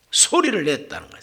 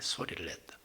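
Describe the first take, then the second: First: Said in the usual way. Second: Whispered. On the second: Shown as a demonstration. Preacher whispers it to show the wrong way to pray. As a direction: whisper it under the breath, barely audible. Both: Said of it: "그런 소리로 하나님 앞에 말씀드린 게 아니에요".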